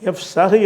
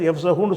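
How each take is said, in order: First: The word ends on the h consonant. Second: The word ends with a u vowel. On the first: The speaker calls it right. "என்று சொல்லணும்" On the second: The speaker calls it wrong. "சொல்லாமல்"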